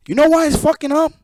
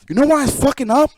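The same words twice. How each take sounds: First: Faster, even higher, pushing on "know"; heated question repeated faster. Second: Pressing question, much higher and louder; heated question. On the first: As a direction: hammer the question home, fast and loud. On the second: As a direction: demand they answer why it breaks. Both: Real, not acted. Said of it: "repeated with more force".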